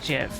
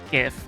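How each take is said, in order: First: The word starts with a J sound. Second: The word starts with a hard G sound. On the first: The speaker calls it wrong. "not GIF" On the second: The speaker calls it right. "I obviously think it's GIF"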